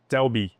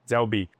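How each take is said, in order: First: The words run together quickly as one contraction. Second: The words run together quickly as one contraction.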